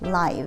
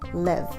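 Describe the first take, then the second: First: The vowel is a long 'i' sound. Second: The vowel is a short 'i' sound. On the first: It is the adjective meaning happening in real time. "When it is an adjective, it is pronounced with a long I" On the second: It is the verb meaning to reside or be alive. "When it is a verb, it has a short I"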